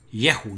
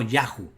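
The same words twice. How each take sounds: First: "Yehu" said with an "e" in the first syllable; slow, careful "ye" in "Yehu"; "Ye" pronunciation. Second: "Yahu" said with an open "a" first; slow, careful "ya" in "Yahu"; rejected "Ya" pronunciation. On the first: Teacher giving the correct reading, careful "Ye" sound. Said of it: "por tanto es Ye". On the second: Teacher naming the reading to reject, careful "Ya" sound. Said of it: "Yehu, no Yahu". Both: Shown as a demonstration.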